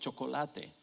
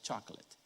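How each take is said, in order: First: It is pronounced the way a Spanish speaker would. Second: It is pronounced the way English speakers do. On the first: "parece otra vez español" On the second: "pero se pronuncia chocolate"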